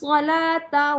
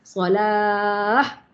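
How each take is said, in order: First: The final letter is sounded as t. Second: The final letter is sounded as h. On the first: The reader continues without stopping. "bunyi huruf ta lah" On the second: The reader stops on this word. "Menjadi huruf H"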